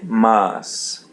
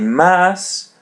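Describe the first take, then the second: First: The vowel is an open, full a. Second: The vowel is a flat, English-like a. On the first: The speaker calls it right. "say mas" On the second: The speaker calls it wrong. "don't say mas"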